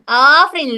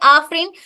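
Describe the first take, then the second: First: The first vowel is held long. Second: The first vowel is held short. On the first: "long कर रही हूं मैं इसको" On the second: "सिर्फ एक ए का इस्तेमाल कर रहे"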